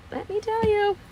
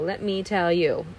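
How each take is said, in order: First: The same phrase again, much higher and mock-dramatic; high-pitched repeat. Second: Said in the usual way. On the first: Real, not acted. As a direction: jump way up in pitch on the echo. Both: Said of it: "repeated for effect".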